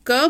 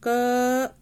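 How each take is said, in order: First: Said in the usual way. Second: क held a little longer so the vowel अ is heard after it; drawn-out क. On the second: Shown as a demonstration. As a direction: stretch क until its अ sound rings out. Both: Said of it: "थोड़ी देर तक जैसे थोड़ा सा लंबा क".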